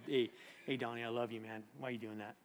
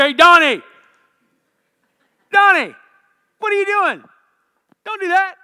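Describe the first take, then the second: First: Very soft, low, tender chiding; God's gentle voice. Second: Very high, loud scolding yell; God's shouted rebuke. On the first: God correcting Donnie with love, soft and gentle. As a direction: murmur it lovingly, no scolding. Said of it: "he always says to me". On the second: God calling Donnie out, loud angry shout. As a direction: shout him down in sharp bursts. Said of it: "doesn't talk to me like that". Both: Acted.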